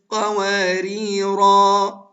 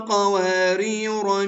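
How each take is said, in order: First: The word ends with a long 'a' vowel. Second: The word ends with a short vowel. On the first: The reading pauses at the end of the verse. "هنا ثبتت وقفا" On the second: The reading continues into the next verse. "وصلا"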